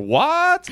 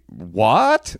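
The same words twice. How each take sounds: First: Squeaked very high and stretched out, full of question marks; cartoonish shocked "What?" leaping way up; comical baffled what. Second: Said in the usual way. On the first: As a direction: make "What?" a huge high, incredulous yelp. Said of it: "a lot of question marks". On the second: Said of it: "comical way that he wrote it".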